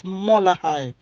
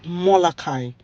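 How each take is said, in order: First: "molahai" with a breathy h in place of k; corrected pronunciation. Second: "molakai" with a hard k in the third syllable; usual mispronunciation. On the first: Retold or imitated. Old man correcting her word, "molahai" with an h sound. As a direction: say "molahai" slowly, h before the final "ai". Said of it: "this Indian old man was like". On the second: Shown as a demonstration. Telling viewers what we normally call it, "molakai" with hard k. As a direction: say "molakai", a clear k before the final "ai". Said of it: "we normally actually call it molakai".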